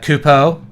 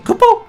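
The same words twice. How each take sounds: First: It is said in an ordinary speaking voice. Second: It is said in a put-on character voice. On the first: The speaker calls it wrong. "That sounds like a regular person talking" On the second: The speaker calls it right. "they're like supposed to say"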